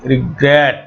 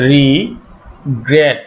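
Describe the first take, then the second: First: Said in the usual way. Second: regret said very slowly, stress on the last part great; stress on last syllable. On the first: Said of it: "stress পড়ছে". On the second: Shown as a demonstration. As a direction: draw out regret, hit the end syllable. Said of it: "এই শেষের অংশটাতে".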